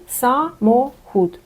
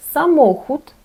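First: Самохід split into sa, mo, hut; syllable by syllable. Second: Самохід as one word, stress on MO; stress on second-last syllable. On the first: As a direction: slowly separate all three syllables of самохід, pausing between them. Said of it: "Три склади". (по складах: са — мо — хут) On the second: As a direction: say sa-MO-hut in Polish, higher and louder. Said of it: "Наголос у польській мові падає на другий склад". (наголос на передостанній склад: са-МО-хут) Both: Shown as a demonstration.

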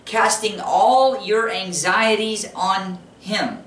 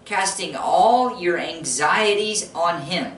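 First: Even slower, pressing "all"; slow emphatic repetition; slower emphatic repeat. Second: Slow, weighty reading; slow deliberate reading; slow scripture read. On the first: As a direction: say it again slowly, stressing "all". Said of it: "Did you hear that?". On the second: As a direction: lean on each word of the verse. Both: Shown as a demonstration.

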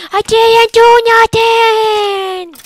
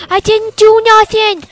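First: High, slow, shouted protest; drawn-out shout. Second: High put-on voice pleading innocence; high whiny protest. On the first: Pretend. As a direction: stretch it into an outraged yell. Protesting innocence again, louder. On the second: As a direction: whine it like a wrongly jailed crook.

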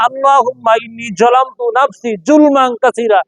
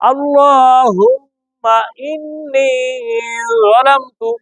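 First: Imitating learners, hard j in "যালামতু" and "জুলমান"; mistaken jim pronunciation. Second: Slow, drawn-out recital with thick, tongue-tip "যালামতু"; correct recitation example. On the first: Teacher shows students their mistake, hard-j "যালামতু". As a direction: recite it straight through with a plain j in "যালামতু". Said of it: "জিম দিয়ে বলেন". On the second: Shown as a demonstration. Teacher gives students an example, thick slow "যালামতু". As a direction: stretch the vowels and make the first sound of "যালামতু" heavy, lips rounded. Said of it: "যেমন আমি উদাহরণ দেই".

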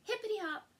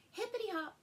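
No difference in how they are said.

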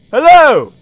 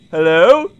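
First: "Hello" louder and higher, falling at the end; impatient call. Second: "hello" low with a small questioning rise; tentative question. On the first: Player gets no answer on the phone, insistent louder hello. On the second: Player waits for someone to pick up, tentative hello. Waiting for phone answer. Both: Real, not acted.

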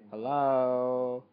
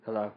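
First: A loud, long call into the mic. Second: Said in the usual way. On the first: Real, not acted. Vlogger calling out to check the mic, loud. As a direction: shout it out to check the mic is working. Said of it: "Hello? (first said plainly)". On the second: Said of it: "Hello? (called again louder)".

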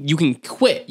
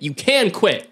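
First: "quit" given the weight, slowly; slow, insistent push on "quit"; stress on quit. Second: "can" hit hard with a full vowel; insistent punch on "can"; stress on can. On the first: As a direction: lean on the final word "quit". Insisting, stress moves between takes. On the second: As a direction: make "can" the strong word, then fall. Repeats it stressing the possibility. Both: Retold or imitated.

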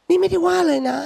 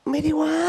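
First: Higher, louder "นี่ไม่ได้ว่าเลยนะ"; escalating protest. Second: Higher protesting "ไม่ได้ว่า"; defensive protest. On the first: Quarrelling couple, denial escalates higher and louder. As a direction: push the denial harder. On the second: Quarrelling couple, one protests "ไม่ได้ว่า" pitched up. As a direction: insist you didn't criticise, pitched up. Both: Retold or imitated. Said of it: "ทะเลาะด้วยประโยคที่ว่า".

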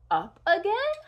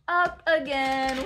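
First: "again" swung high in a question. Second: "Up again" stretched, without the questioning lift. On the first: Asking the child about another climb, rising question. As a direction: ask it, rising sharply on "again". Question take, then announced take. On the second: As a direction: announce "Up again", lengthening "again". Drawn-out take after the question. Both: Pretend.

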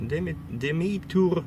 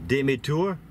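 First: "demi, demi-tour" with French vowels, pitched high; French pronunciation. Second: "demi-tour" said with English vowels and a rising, louder "tour"; anglicized pronunciation. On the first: Cashier correcting the trucker with French "demi-tour", high and quick. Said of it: "and she says". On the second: Trucker testing the cashier by reading "demi-tour" off a sign, English-style. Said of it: "because I pronounce it". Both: Retold or imitated.

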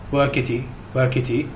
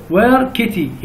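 First: Said in the usual way. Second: "where kitty" with the pitch rising at the end; "kitty" goes up at the end to make a question; rising question tune. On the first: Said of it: "ما أقول مثلًا". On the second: Shown as a demonstration. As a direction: lift your voice on "kitty" like a toddler asking. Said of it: "يعني يرفع نبرة الصوت مالته".

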